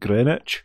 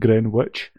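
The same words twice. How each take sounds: First: The middle w sound is silent. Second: The middle w sound is pronounced. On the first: The speaker calls it right. "the W is not pronounced, so it's just Greenwich" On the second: The speaker calls it wrong. "rather than Greenwich"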